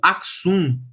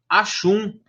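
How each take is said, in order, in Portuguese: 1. As consoantes do meio são um som de 'ks'. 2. A consoante do meio é um som de 'sh'. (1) "das duas pronúncias" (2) "das duas pronúncias"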